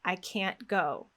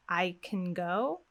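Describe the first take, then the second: First: CAN'T long and stressed before GO; slow-beat can't. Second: Weak quick I CAN, long GO; softer model, CAN reduced, weight on GO; fast-fast-slow rhythm. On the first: Teacher showing a negative is heard, stressed CAN'T. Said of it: "if it's a slow beat, then we hear negative". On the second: Teacher showing a positive is heard, unstressed CAN. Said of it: "a fast beat, another fast beat, and a slow beat". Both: Shown as a demonstration.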